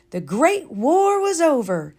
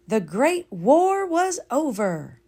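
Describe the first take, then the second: First: Higher, louder proclamation; lightly jubilant announcement. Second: Slow, solemn echo; understated solemn repeat; slow sincere repeat. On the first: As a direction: announce the joyful news. Narrated announcement, repeated. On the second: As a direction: savour the words slowly. Second, slower take. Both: A narrator's reading.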